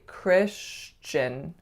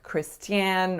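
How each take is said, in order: First: A ch sound comes before the ending. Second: There is no ch sound before the ending. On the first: The speaker calls it right. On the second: The speaker calls it wrong. "I often don't hear the ch coming in"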